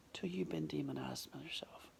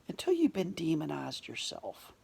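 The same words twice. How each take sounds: First: Whispered echo. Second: Said in the usual way. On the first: Shown as a demonstration. Speaker repeats his point to the audience as a quiet whisper. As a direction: echo the line in a hushed whisper for weight.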